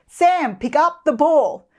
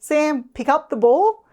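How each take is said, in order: First: The voice is harsh and loud. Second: The voice sounds hesitant and unsure. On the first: It makes the child feel threatened. "If your tone is too harsh or loud" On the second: It suggests the child may refuse. "if your tone sounds uncertain"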